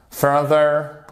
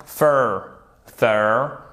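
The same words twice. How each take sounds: First: "further" whole, with the first syllable stressed. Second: "further" pulled apart into fur, pause, ther; syllable by syllable. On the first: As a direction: lean on the start of "further". (« further » d'un bloc, accentué au début) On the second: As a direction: sound out each syllable of "further" separately. (« further » prononcé syllabe par syllabe) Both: Shown as a demonstration. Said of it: "Mettez bien l'accent tonique ici".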